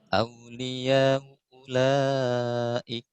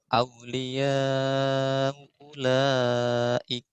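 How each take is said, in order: First: The long vowel is held short. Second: The long vowel is held at medium length. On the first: "Wajah kedua berarti kosernya" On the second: "Karena tashil berarti kita baca tawasud dulu"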